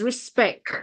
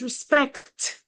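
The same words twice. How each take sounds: First: "respect" ending on k, no t; Patois pronunciation. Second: "respect" with its final t released; English pronunciation. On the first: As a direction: leave the final t off "respect". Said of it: "you do need to point it out". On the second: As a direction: end "respect" in a clear k-t. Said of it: "point it out that in English". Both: Shown as a demonstration.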